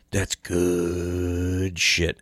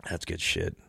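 First: Slow, drawn-out savoring. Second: Said in the usual way. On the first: Shown as a demonstration. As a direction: stretch "That's good shit." out slowly, relishing it. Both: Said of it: "while I drink this".

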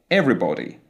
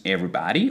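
First: Everybody with a rounded O in body; British closed O. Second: Everybody with an ah in body; American open O. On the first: Teacher contrasting with American, closed O. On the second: Teacher listing collective nouns, American open O. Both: Shown as a demonstration. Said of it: "the British will pronounce a closed O sound".

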